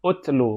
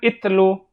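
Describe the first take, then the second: First: The word begins with a u vowel. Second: The word begins with an i vowel. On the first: The speaker calls it right. "Utlu, bukan itlu" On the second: The speaker calls it wrong. "bukan itlu"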